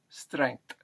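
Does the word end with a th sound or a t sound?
t. It ends with a t sound instead.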